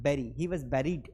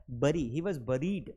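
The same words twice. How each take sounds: First: "buried" said like berried; preferred pronunciation. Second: "buried" said BUH-reed; short uh vowel in "बरी" and "buried"; alternative pronunciation. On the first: Teacher showing students the preferred bury, e pronunciation. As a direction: open e in "बैरी" and "buried". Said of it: "आपको बैरी पढ़ना है". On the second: Teacher showing the other allowed bury, uh pronunciation. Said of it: "तो बरी पढ़ सकते हैं". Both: Shown as a demonstration.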